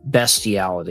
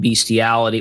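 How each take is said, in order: First: The first syllable has a short 'e' vowel. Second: The first syllable has a long 'ee' vowel. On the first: The speaker calls it right. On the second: The speaker calls it wrong.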